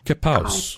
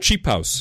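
First: The word begins with a k sound. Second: The word begins with a ch sound.

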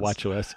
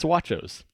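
First: OS is said as two separate letters. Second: It is one word rhyming with nachos. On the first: The speaker calls it wrong. "is not Watch OS" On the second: The speaker calls it right. "Rhymes with nachos"

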